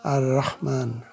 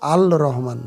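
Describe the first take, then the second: First: The l merges into the following r sound. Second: The l is pronounced clearly before the r. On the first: The speaker calls it right. "এই জন্য লামের উচ্চারণ হলো না।" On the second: The speaker calls it wrong. "আল আল রহমান হবে না"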